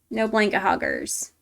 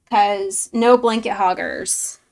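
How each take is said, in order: First: Said in the usual way. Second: Loud, slow, with weight on no; mock stern rule. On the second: Laying down the rule to a chatter who hogs blankets, loud and slow. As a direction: spell out the rule, slowly and firmly.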